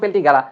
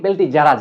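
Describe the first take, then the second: First: A hard g sound starts the last part. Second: A j sound starts the last part. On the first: This is probably the original pronunciation. "হয়তো বা আসল উচ্চারণ" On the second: This is how the speaker personally reads it. "But আমি পড়ি"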